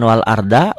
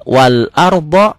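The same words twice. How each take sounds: First: "arda" quick, with light d and open a. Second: Slow, louder "arda" with rounded o ending; rounded ardho. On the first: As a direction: keep "arda" thin, ending on a. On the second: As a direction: thicken the d, round the end of "arda". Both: Shown as a demonstration. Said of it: "jangan wal arda".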